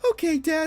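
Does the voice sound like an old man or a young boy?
young boy. It is spoken in a young boy's voice. The speaker calls it right.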